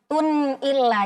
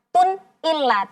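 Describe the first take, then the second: First: The n sound is fully held before the next vowel. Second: The n sound is cut off abruptly. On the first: The speaker calls it right. "sempurnakan dulu bunyi nun sukunnya" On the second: The speaker calls it wrong.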